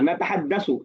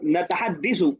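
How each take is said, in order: First: The vowel after the double d is a. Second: The vowel after the double d is i. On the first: The speaker calls it right. "यतहद्दसु तो नतहद्दसु होगा।" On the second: The speaker calls it wrong. "दो जगह आपने कहा अ, नतहद्दिसु, कोई गलती है इसमें?"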